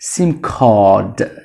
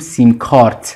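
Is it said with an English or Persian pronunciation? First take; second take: English; Persian. First: It is said with an English pronunciation. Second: It is said with a Persian pronunciation. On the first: The speaker calls it right. "اما تلفظش هست sim card" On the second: The speaker calls it wrong. "معمولا فارسی میگیم sim card"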